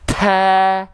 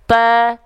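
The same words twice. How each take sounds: First: The letter has a strong, exaggerated burst of breath. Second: The letter has only a light puff of breath. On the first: The speaker calls it wrong. "itu takaluf, berlebihan" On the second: The speaker calls it right. "Ada percikan nafasnya sedikit"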